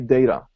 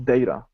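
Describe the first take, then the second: First: It is said with an American pronunciation. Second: It is said with an American pronunciation.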